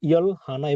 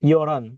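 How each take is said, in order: First: The two words are said separately and fully. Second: The two words run together as one word. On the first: The speaker calls it wrong. "একসাথে উচ্চারণ কিন্তু ইয়ল হানা এভাবে হবে না" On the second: The speaker calls it right. "একসাথে উচ্চারণ হচ্ছে"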